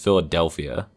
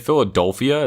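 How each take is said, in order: First: The middle syllable sounds like 'del' in Delta. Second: The middle syllable sounds like 'dol' in dolphin. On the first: The speaker calls it right. "It's Philadelphia" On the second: The speaker calls it wrong. "you say Philadelphia"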